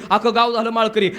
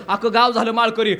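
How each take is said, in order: Both takes have the same delivery.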